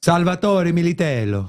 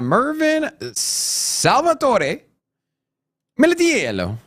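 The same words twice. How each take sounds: First: Put-on smooth Italian accent on the name. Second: Put-on slow, drawn-out hammy Italian accent; bad Italian accent. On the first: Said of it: "at least someone appreciated my Italian". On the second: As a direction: stretch the name in a clumsy Italian accent. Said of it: "That was the worst Italian accent".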